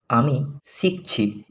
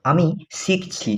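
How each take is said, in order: First: আমি শিখছি said slower and softer, each syllable spaced; slow careful repeat. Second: Said in the usual way. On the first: Shown as a demonstration. Teacher repeating for learners to copy, slow and soft. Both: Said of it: "teacher models phrase twice".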